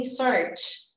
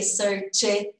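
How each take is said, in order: First: "search" ending straight into a T, no added vowel; correct past sound. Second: "search it" with a separate "it" syllable, the mistake students make; wrong extra E. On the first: Teacher giving students the correct past sound, no extra E. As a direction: say it the right way, closing on T. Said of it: "E sim search". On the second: Teacher showing students their common mistake, extra syllable. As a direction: imitate the learner's "search it" with an added vowel. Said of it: "Não vai ter esse E". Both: Shown as a demonstration.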